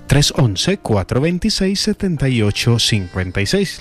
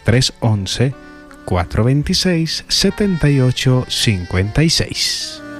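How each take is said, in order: First: It is said at normal speed. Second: It is said more slowly.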